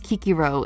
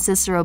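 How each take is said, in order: First: The name begins with a hard k sound. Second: The name begins with a soft s sound. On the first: This is the reconstructed ancient pronunciation. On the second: This is the usual modern English pronunciation.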